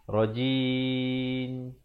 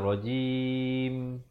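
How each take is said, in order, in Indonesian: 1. Bunyi akhirnya terdengar seperti n. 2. Bunyi akhirnya adalah m, bibir tertutup. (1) "Kalau tak rapat mulut tutup, dengar macam huruf nun nanti. ... Itu tak boleh" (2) "Dia mesti kata rajim. Baru sempurna"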